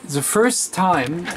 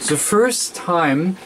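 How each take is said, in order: Both takes have the same delivery.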